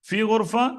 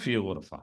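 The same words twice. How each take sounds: First: It is said with a questioning tune. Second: It is said with a statement tune. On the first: It asks whether a room is available. "ചോദ്യമാണ്" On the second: It says that a room is available. "ഉത്തരമാണ്"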